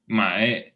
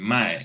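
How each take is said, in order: First: The pitch dips down and then rises. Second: The pitch falls sharply and stays down. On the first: It means to buy. "the intonation goes down and then up" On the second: It means to sell. "the other one just goes down"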